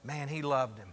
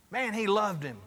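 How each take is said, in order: First: Low, soft aside to a neighbor; confiding aside. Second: Said in the usual way. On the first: Acted. Bystander leans over to the one next to him, confiding aside. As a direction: lean in and say it privately. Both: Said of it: "leans over and goes".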